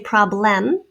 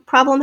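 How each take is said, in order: First: The second syllable has a full short E vowel. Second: The second syllable has a reduced schwa vowel. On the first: "I don't say problem. Maybe you do" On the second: "problem has a schwa, spelled E"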